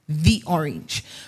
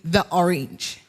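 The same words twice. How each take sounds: First: 'The' is said with a long 'thee' vowel. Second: 'The' is said with a short 'thuh' vowel. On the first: The speaker calls it right. "you pronounce it as T H E E" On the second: The speaker calls it wrong. "We normally say"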